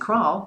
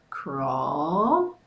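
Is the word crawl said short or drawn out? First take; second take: short; drawn out. First: The word is said short and clipped. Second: The word is stretched out and drawn long. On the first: "instead of saying crawl" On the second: "really expand out on that... say it like that"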